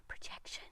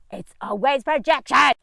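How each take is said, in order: First: Breathy whisper after a laugh; whispered aside. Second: Said in the usual way. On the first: Real, not acted. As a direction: drop to a secret whisper.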